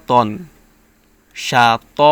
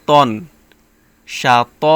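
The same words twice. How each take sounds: Both takes have the same delivery.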